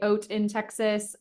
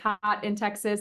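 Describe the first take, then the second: First: The first word sounds like 'oat', without h. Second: The first word sounds like 'hot', with h. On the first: It is the fancy way to say it. "if you want to be fancy, you can say oat in Texas" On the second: It is how many people say it, as a play on words. "A lot of people say hot in Texas"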